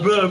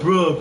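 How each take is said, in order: First: The word ends with an 'uh' vowel. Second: The word ends with an 'oh' vowel. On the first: The speaker calls it wrong. "Not bruh" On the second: The speaker calls it right. "That is the real way to say the word"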